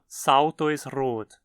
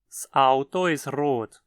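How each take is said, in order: First: The s runs straight into Auto without break. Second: A glottal catch separates the s from Auto. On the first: The speaker calls it wrong. "Não pronuncie como Salto ist rot" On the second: The speaker calls it right. "Você precisa fechar a garganta entre o S e a palavra seguinte"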